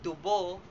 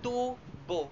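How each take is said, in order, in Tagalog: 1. Walang diin; hinahaba ang ikalawang pantig. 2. Nasa unang pantig ang diin. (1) "walang diin, ngunit nilalapatan ito ng H sa ikalawang pantig upang mas humaba" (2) "nilalapatan ng diin sa unang pantig"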